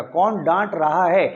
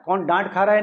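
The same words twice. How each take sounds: First: कौन डांट रहा है said slowly, each word spaced; slow teacher emphasis on कौन डांट रहा है; slow, emphatic model question. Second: Said in the usual way. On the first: Shown as a demonstration. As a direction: drill the correct question slowly so they remember it. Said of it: "ये हमेशा याद रखिएगा". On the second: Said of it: "नहीं".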